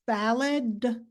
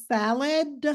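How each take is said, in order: First: The final d sound is clearly voiced. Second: The same.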